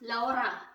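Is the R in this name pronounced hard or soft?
hard. The R sound is pronounced strongly and hard. "in my language, the way I read this name is Laura Mercier. We actually pronounce the R quite hard"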